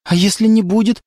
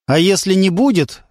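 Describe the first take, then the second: First: Hopeful rising question. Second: Falling musing repeat; thoughtful. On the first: The girl asks hopefully if her father will back off. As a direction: ask it with hope. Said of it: "прозвучала надежда". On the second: Lyonya ponders her question, thoughtful. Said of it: "Лёня задумался". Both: A narrator's reading.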